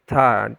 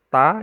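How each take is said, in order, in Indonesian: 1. Ta itu punya hembusan napas yang berat dan kuat. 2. Ta itu punya aliran napas yang ringan dan lembut. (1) "jangan terlalu ta gitu" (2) "udara yang mengalir tapi tidak terlalu"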